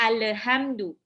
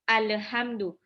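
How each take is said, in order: The two takes are said the same way.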